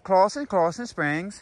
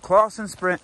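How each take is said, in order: First: The words are said in a put-on Scottish accent. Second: The words are said in the speaker's regular accent. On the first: "they can't give me that word Clawson and not expect a Scottish accent" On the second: "saying it in a regular tone, that hurt my soul"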